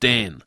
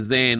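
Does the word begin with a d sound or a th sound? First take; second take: d; th. First: The word begins with a hard d sound. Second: The word begins with a soft th sound. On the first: This is the form the speaker's community actually used. The speaker calls it right. "us said den" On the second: This is the form the speaker's community did not use. The speaker calls it wrong. "Us didn't say then"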